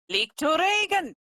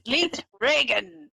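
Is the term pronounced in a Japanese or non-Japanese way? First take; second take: Japanese; non-Japanese. First: The term is said with Japanese pronunciation. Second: The term is said without Japanese pronunciation.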